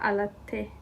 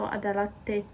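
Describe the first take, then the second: First: It is said without that extra consonant sound. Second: It is said with an extra consonant near the start. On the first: The speaker calls it right. "but alatte" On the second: The speaker calls it wrong. "if I was to pronounce it the way it is written"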